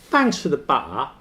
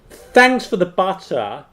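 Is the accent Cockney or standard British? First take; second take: Cockney; standard British. First: It is said in a Cockney accent. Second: It is said in a standard British accent.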